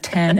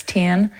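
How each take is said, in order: First: Said in the usual way. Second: "ten" with the E turned into an I; accented vowel. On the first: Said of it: "it's ten". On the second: Shown as a demonstration. Actor showing how the accent turns E's into I's, accented "ten". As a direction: say "ten" with an I sound in place of E. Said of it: "in that accent, they turn ... E's into I's".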